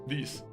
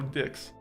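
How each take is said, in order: First: The word does not end with a ks sound. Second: The word ends with a ks sound. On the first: The speaker calls it right. "There you go" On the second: The speaker calls it wrong. "Don't don't pronounce it as you know dicks"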